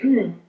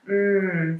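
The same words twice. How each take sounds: First: The mm sounds like simple agreement. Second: The mm sounds serious. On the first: The listener is just agreeing and listening. "If we're just agreeing and listening" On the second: The listener takes the matter gravely.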